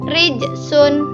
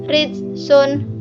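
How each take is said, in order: First: The middle consonant is released with a light bounce. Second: The middle consonant stops without an echoing bounce. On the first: The speaker calls it right. "bacaan yang benar" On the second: The speaker calls it wrong. "Bacaan salahnya"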